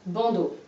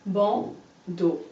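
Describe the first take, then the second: First: Said in the usual way. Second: Bandeau in two separate syllables, ban, pause, deau; split into syllables. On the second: Shown as a demonstration. Teacher showing a pupil the syllables, bandeau split by a pause. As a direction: pull bandeau apart syllable by syllable. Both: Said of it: "Et on recolle".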